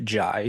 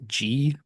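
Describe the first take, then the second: First: The name is said rhyming with 'eye'. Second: The name is said like the letter G. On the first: The speaker calls it right. "but pronounced Jai" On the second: The speaker calls it wrong. "I have mispronounced his name in the past as G"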